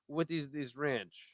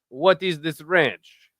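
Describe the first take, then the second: First: It is said in a poor Italian accent. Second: It is said in a stronger Italian accent. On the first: "that's actually a terrible Italian accent" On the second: "Let me try again"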